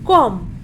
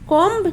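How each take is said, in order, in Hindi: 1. यह शब्द m की ध्वनि पर खत्म होता है। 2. यह शब्द एक सुनाई देने वाली b ध्वनि पर खत्म होता है। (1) "so we will प्रोनाउंसिएट कॉम" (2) "कॉम्ब नहीं बोलेंगे"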